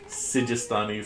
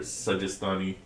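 First: The first vowel is an 'i' sound. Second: The first vowel is an 'a' sound. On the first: "Officially, I believe it's actually Sijistani" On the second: "you will often hear Sajistani"

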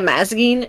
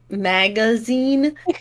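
First: The g and z sounds are swapped. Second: The g and z sounds are in order. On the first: The speaker calls it wrong. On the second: The speaker calls it right.

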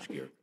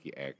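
First: The ending is swallowed and barely heard. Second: The ending is clearly sounded out. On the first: "zo uitspreken dat niemand het hoort" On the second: "Ik zei altijd ski-erk, alsof er een kaas staat"

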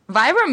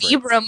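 First: The first vowel sounds like "eye", as in vibrate. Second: The first vowel sounds like "ee", as in vee. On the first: "makes more sense to me the way it's spelled. / like vibrate" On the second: "would be like V-E-E"

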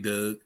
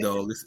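First: The word has a 'dug'-like vowel. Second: The word has a standard open 'dog' vowel. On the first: "They say dug" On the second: "They don't say dog"

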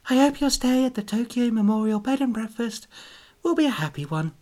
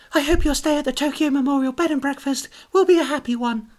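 First: It is said with much less enthusiasm. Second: It is said with a lot of enthusiasm.

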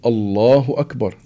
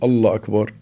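First: The final h of Allah is clearly pronounced. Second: The final h of Allah is dropped. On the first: The speaker calls it right. "ولما ندخل في الصلاة بنقول الله أكبر" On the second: The speaker calls it wrong. "ما بنقول الله أكبر"

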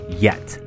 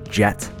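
First: The name begins with a Y sound. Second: The name begins with a J sound. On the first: It is the Dutch feminine nickname. "Yet is a common feminine nickname in Dutch-speaking countries" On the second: It is the English male nickname. "Jet is a male-only nickname in English-speaking countries"

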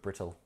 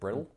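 First: The middle T is pronounced as a crisp T. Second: The middle T is flapped, sounding like a D. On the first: The speaker calls it wrong. "He pronounces the T so annoyingly" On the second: The speaker calls it right. "He's American, he should be sounding like Brittle"

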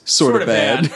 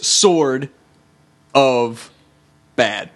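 First: The three words are run together quickly. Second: The three words are said separately. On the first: "when you said it fast" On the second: "Three separate words"

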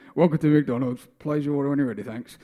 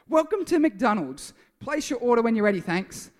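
First: It is said in a grumpy tone. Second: It is said in a cheerful tone.

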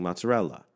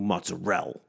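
First: The L is released and the final vowel is heard. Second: The word stops at the L with no final vowel. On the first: The speaker calls it right. "you hit the L kind of hard, and then the A just kind of like happens" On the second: The speaker calls it wrong. "they just go mozzarella and they just like stop it there"

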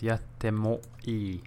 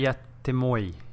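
First: The ending is not a clipped moi. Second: The ending is a clipped one-syllable moi. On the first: The speaker calls it right. "It's yattemoi" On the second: The speaker calls it wrong. "Don't say yattemoi. It's not moi"

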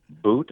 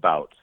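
First: The name rhymes with the word boot. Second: The name rhymes with the word out.

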